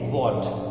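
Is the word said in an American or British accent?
British. The word is said in a British accent. "In British English इसे बोलते हैं वॉट"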